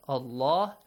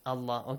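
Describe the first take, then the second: First: The word is said with a heavy, full sound. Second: The word is said with a light, thin sound. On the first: "sometimes it is pronounced with a heavy sound" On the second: "That's why you read it with an light sound"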